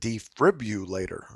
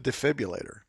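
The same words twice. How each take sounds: First: An r sound follows the syllable 'defib'. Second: No r sound follows the syllable 'defib'. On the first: Someone else said it this way. "when this person said defibrillator, I was like, what? Where'd that R come from?" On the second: This is how the speaker has always said it. "I've always called it a defibrillator"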